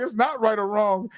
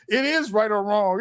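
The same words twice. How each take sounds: First: "not" pushed out firmly in the middle of the line; stress on not. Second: "is" spelled out in full and hit hard; stress on is. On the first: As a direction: lean hard on "not", the rest even. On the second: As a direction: land the weight on "is", not contracted. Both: Shown as a demonstration. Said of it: "It's a to be or not to be little tick".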